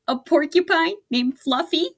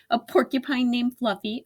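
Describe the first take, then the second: First: High, loud mocking howl; mock laughing rhinoceros howl, higher and louder; howling with laughter. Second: Said in the usual way. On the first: A narrator's reading. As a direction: hoot the name in disbelief. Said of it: "howled the rhinoceros". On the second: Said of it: "narration retelling the line".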